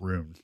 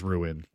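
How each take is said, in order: First: The word is rushed into a single syllable. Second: The word is said slowly with two syllables. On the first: The speaker calls it wrong. "It's not rune. ... Like you're saying it too fast" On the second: The speaker calls it right. "It's ruin"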